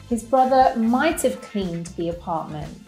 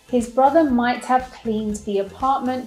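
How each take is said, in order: First: The word have is contracted to a v sound. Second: The word have is said in full.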